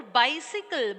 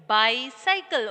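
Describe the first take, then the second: First: "bicycle" said as BY-si-kul; short-i middle syllable. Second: "Bicycle" said as BY-sy-kul; long-i middle syllable. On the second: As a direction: middle of "Bicycle" rhymes with sigh. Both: Shown as a demonstration. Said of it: "Both are same".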